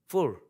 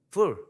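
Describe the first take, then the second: Both takes have the same delivery.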